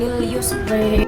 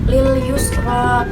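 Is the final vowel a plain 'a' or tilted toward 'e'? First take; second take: tilted e; plain a. First: The final vowel is tilted toward e. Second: The final vowel is a plain open a.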